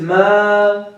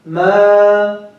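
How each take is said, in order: First: The vowel fades out gradually into the air. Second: The vowel fades out gradually into the air.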